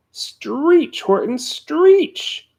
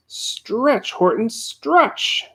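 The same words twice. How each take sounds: First: Very high, very slow and louder; shrieking yell. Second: Higher, slow drawn-out call; yelling. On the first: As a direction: push him harder, stretching the words out. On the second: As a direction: urge him on, stretching the words. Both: A narrator's reading. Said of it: "yelled the bug".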